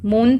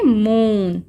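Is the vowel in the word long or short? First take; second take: short; long. First: The vowel is short and clipped. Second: The vowel is long and drawn out. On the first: The speaker calls it wrong. "मून तो short हो जाएगा" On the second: The speaker calls it right. "Double O long है इसमें"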